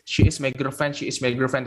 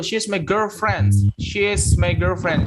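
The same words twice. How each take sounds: First: Put-on SHE IS MY GIRLFRIEND with IS as its own syllable; long-winded full form. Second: Put-on SHE'S MY GIRLFRIEND, slow, with "she's" as one syllable; contracted form. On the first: Teacher shows learners the needless long form, "she is" uncontracted. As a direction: keep "she" and "is" apart in "she is my girlfriend". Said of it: "nggak perlu bertele-tele bilang". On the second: Teacher gives learners an example sentence, "she's" contracted and slowly modelled. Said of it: "Bisa lebih cepat ya bacanya". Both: Shown as a demonstration.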